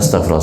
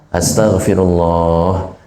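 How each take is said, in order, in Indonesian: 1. Vokalnya dibaca pendek dan bunyinya hilang. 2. Vokalnya dibaca panjang dan bunyinya tetap ada. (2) "Lafzul jalalahnya pan panjang"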